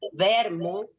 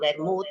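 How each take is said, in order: First: The stress falls on a different syllable. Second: The stress falls on the usual syllable. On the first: This is the Piedmontese way of saying it. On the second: This is the standard Spanish way of saying it.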